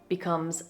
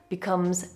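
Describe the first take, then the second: Both takes have the same delivery.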